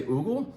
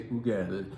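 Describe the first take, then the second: First: Ugel said as a German name, OO-gul; German pronunciation. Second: Ugel said as a French name, oo-GELL; French pronunciation. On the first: Explaining the winery name to customers, Ugel said German-style. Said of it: "as if it's a German name". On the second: Explaining the winery name to customers, Ugel said French-style. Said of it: "because now it's a French name". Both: Shown as a demonstration.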